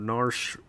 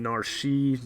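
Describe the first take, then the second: First: The name ends without any final vowel sound. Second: The name ends with a pronounced vowel sound.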